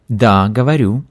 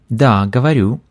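No difference in how they are said.

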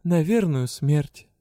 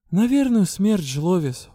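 First: Gloomy repeat. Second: Gloomy reply. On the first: Heroine repeats her doom to the goblin, slow and gloomy. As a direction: say it slowly like a verdict. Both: A narrator's reading. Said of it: "угрюмо ответила я".

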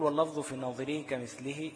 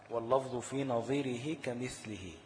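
First: Said in the usual way. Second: Poem recitation. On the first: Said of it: "بيقول". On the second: Shown as a demonstration. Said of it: "لقول ابن الجزري رحمه الله".

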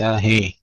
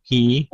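First: هي as "hee" opened to "heh"; slack kasra. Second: هي as a clear "hii"; full kasra. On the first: Teacher isolating the error, open e in هي. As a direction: loosen هي toward an e vowel. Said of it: "وليس هي". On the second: Teacher isolating the correct syllable, clear i in هي. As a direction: give هي a true i vowel. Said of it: "نحقق الكسر". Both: Shown as a demonstration.

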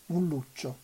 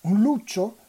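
First: Said in the usual way. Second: "luccio" lifted high and louder in alarm; surprised question. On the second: A narrator's reading. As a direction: echo the word in startled disbelief. Elena repeats the word, startled. (sorpresa, "luccio" detto più alto e forte)

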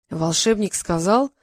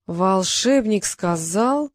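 First: Slow, hanging phrase; slowed, left unfinished; hesitant thinking. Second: Very slow, stretched-out repeat; extremely drawn-out, left hanging; stalling. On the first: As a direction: feel for the answer. Groping for the riddle's answer. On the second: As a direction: drag each word while searching. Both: A narrator's reading.

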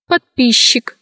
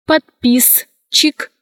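First: Подписчик said as подпищик; SCH as Щ. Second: Slow подписчик, cut as подпис-чик; spelling pronunciation. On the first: Teacher showing how подписчик is pronounced, merged Щ. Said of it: "произносится". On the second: Teacher showing how подписчик is written, spelled-out reading. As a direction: sound С and Ч apart in подписчик. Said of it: "Пишется". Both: Shown as a demonstration.

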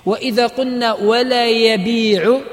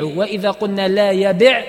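First: يبيع said with the long ī, yabīʿu, ولا stressed and rising; ولا يبيع said as a statement, long vowel kept in يبيع; indicative form. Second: يبع said short and clipped, yabiʿ with no long vowel; يبع pronounced yabiʿ, short i, firm stop on the ع; jussive form. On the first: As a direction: stretch the ī in يبيع and lift ولا. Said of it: "هذا الفعل تضمن معنى النهي". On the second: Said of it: "هذا نهي واضح". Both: Shown as a demonstration.

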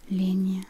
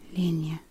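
Both takes have the same delivery.

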